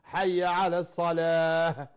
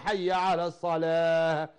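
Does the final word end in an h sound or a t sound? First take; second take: h sound; h sound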